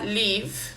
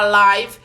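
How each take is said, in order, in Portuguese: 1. A vogal é um som de 'i' curto. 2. A vogal soa igual à palavra 'eye'. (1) "Ou você fala live, e aí significa morar" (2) "Você fala live, e aí significa ao vivo"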